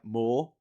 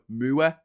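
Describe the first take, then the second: First: It is said in a standard accent. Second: It is said in a Durham Pitmatic accent.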